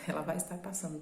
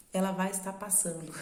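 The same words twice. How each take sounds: First: A light mock call-center operator read; playful hint of a phone-sales pitch; telemarketing voice. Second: Said in the usual way. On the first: Shown as a demonstration. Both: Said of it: "bem cara de telemarketing".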